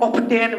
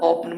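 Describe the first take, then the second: First: The t sound is pronounced in the middle. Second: The t sound is left out entirely. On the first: The speaker calls it wrong. "बहुत student ऑप्टेन वगैरह कुछ कुछ इस तरह से गलत पढ़ते हैं।" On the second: The speaker calls it right. "यहाँ पर टी साइलेंट है"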